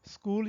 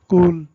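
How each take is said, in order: First: The word begins with an s sound. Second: The word begins directly with a k sound. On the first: The speaker calls it right. "सीन या एस की आवाज़ ना वो निकाल पाएँ" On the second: The speaker calls it wrong. "बच्चे ना कूल कह लें"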